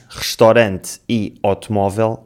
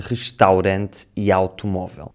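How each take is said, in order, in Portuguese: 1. O som «au» reduz-se a um «o» simples. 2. O som «au» é um ditongo completo. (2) "em vez de"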